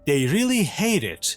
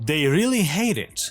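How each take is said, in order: No difference in how they are said.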